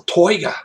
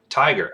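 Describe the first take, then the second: First: The first vowel sounds like 'oi', Australian style. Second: The first vowel sounds like 'eye', plain style.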